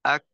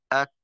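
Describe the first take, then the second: First: আক with a small puff of air released; tajweed breath demo. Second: আক with the k fully stopped, no air; tajweed stop demo. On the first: ওস্তাদ হামস দেখাতে আক শেষে একটু বাতাস ছাড়েন. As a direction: let a little breath out on the k of আক. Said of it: "এই যে একটু বাতাস ছাড়লাম". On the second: ওস্তাদ সিদ্ধা দেখাতে আক বন্ধ করে উচ্চারণ করেন. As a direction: clip আক shut at the throat. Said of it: "এই যে মাখরাজ আওয়াজটাকে আটকাইলাম". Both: Shown as a demonstration.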